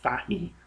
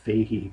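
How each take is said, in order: First: The name is pronounced the local Irish way. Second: The name is pronounced the international way. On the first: "we tend to pronounce it Fahy over here" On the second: "that's how his name is pronounced. So um, internationally"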